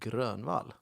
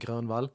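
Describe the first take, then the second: First: The name is said in a Stockholm accent. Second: The name is said in a Southern Swedish accent. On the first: "probably from from Stockholm, would say Grönvall" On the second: "I'm from the south of Sweden, so I would say Grönvall"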